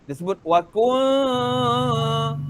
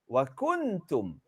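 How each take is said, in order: First: The n becomes a hidden nasal hum before k. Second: The n is pronounced clearly before the k. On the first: This is how it is said in Quranic recitation. "Tapi dalam bahasa wahyu tak sebut wa kuntum" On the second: This is how it is said in ordinary Arabic.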